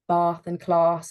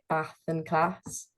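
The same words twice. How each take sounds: First: It is said in a southern English accent. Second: It is said in a northern English accent.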